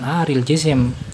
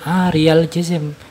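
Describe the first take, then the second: First: The first word does not end in an 'a' vowel. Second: The first word ends in an 'a' vowel. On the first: The word describes the camel, not the Prophet. "itu bacanya bukan Haril Jisim" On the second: The word describes the Prophet's state. "fathah di akhir katanya"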